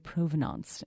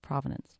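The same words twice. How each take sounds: First: It is pronounced with a French-style pronunciation. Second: It is pronounced the anglicized English way. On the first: The speaker calls it wrong. "they always say provenance instead of" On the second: The speaker calls it right. "completely anglicized hundreds of years"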